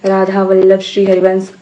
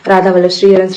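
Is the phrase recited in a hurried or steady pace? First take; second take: steady; hurried. First: The phrase is recited at an even pace. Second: The phrase is rushed out quickly. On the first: The speaker calls it right. "एक समान गति में करना है। जैसे" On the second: The speaker calls it wrong. "जैसे कभी जल्दी जल्दी कर लेते हैं, ऐसे ... ऐसे नहीं करना है"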